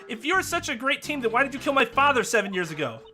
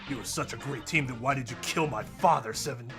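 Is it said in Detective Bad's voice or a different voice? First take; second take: different voice; Detective Bad. First: It is said without the Detective Bad impression. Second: It is said in an impression of Detective Bad.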